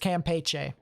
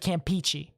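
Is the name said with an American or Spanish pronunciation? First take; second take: Spanish; American. First: The name is said with a Spanish pronunciation. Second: The name is said with an American pronunciation. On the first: The speaker calls it right. "we're rolling with the Spanish pronunciation" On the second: The speaker calls it wrong. "not the American pronunciation"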